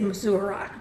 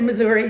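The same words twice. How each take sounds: First: The name is said the Arkansas way. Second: The name is said the standard way.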